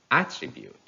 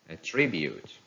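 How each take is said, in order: First: "attribute" as AT-tribute; stress on first syllable. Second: "attribute" as a-TRIB-ute; stress on second syllable. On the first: Teacher reading a noun, "attribute" stressed on AT. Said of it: "stress on the first syllable". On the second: Teacher reading a verb, "attribute" stressed on TRIB. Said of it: "stress falls on the second syllable". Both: Shown as a demonstration.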